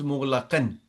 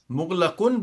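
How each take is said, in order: First: Mughlaqan ending on "an"; careful "mughlaqan", a vowel before the final n. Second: Mughlaqun ending on "oon"; careful "mughlaqun", u vowel before the final n. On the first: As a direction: say "mughlaqan" with a clear "-an" at the end. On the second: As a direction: say "mughlaqun" with a clear "-un" at the end. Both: Shown as a demonstration. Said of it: "mughlaqun becomes mughlaqan".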